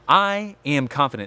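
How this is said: It is said firmly and with conviction.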